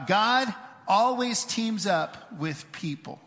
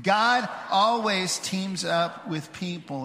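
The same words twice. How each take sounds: First: Slow, spaced-out call to say it together; leading group recitation. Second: Slow, sure group recitation, more connected; confident recitation. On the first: Real, not acted. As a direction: say it slowly so a crowd can join in. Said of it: "say this statement out loud with me". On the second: Shown as a demonstration. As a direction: say it like you know it by heart. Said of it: "like we know what it says".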